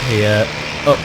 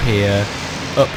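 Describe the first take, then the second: No difference in how they are said.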